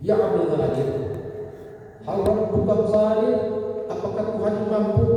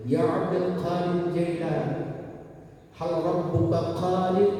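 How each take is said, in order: First: Put-on urgent drunk man. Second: Higher, slow pleading question; drunk man asking. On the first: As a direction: call out the question at full force. Drunk man asks third time. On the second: Acted. Drunk man asks the sheikh, higher and slow. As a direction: plead with the sheikh, drawn out and sung.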